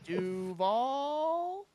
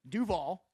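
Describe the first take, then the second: First: The word is said with a questioning rise. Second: The word is said plainly, without a questioning rise. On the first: This copies the coach's questioning take on the name. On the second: This is the traditional way the name is said.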